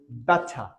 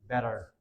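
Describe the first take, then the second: First: It is said in a British accent. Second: It is said in an American accent. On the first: "In British accent, that is better" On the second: "in American accent, the t sound is converted"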